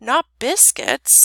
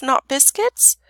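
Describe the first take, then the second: First: Slow, higher, gently coaxing question; tender. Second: Said in the usual way. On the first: A narrator's reading. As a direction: ask it tenderly, drawn out. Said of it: "said the princess tenderly".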